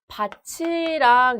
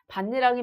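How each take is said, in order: First: The middle syllable is said with a ch sound. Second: The middle syllable is said with an n sound. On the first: The speaker calls it wrong. "발음해야 한다고 오해할 수 있습니다" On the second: The speaker calls it right. "반니랑이 맞는데요"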